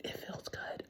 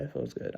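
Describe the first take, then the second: First: Whispered confession, voice gone unvoiced; secret whisper. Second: Said in the usual way. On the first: Real, not acted. Whispering to her viewers that cursing feels good.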